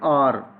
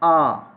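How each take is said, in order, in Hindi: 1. इस शब्द के अंत में r ध्वनि बोली जाती है। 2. इस शब्द का अंत लंबे स्वर से होता है, r नहीं। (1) "पाकिस्तानी इंग्लिश स्पीकर जो है वो तो इसको पढ़ते हैं आर" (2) "नेटिव स्पीकर्स हैं वो इसको पढ़ेंगे आ ... अब आर नहीं है"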